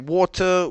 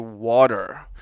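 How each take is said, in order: First: The word has a non-American pronunciation. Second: The word has an American pronunciation. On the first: "we don't say water" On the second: "I'm from America and ... we say water"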